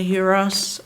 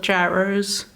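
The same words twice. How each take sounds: First: It is said in a Greek-style pronunciation. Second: It is said in an American pronunciation.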